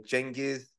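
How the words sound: The name is said the Turkish way. "The Turks will say Genghis"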